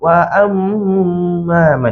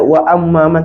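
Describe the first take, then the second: First: The nasal m sound is held long. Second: The nasal m sound is short, not held. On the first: The speaker calls it right. "tertahan dulu" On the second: The speaker calls it wrong. "Jangan baca wa amma man"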